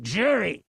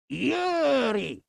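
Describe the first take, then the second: First: It starts with a J sound. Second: It starts with a Y sound. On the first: The speaker calls it wrong. "A lot of people pronounce it jury" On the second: The speaker calls it right. "but it's actually Yuri"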